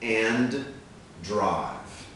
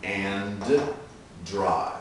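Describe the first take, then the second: The two takes are said the same way.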